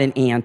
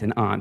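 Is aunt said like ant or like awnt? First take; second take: ant; awnt. First: Aunt rhymes with ant, Baltimore style. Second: Aunt is said with a broad awnt vowel.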